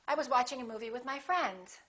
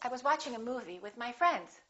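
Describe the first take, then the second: First: It is said quickly without a pause after movie. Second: It is said with a pause after movie. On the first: "if you want to speak a little faster, you can say" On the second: "I would personally prefer to pause"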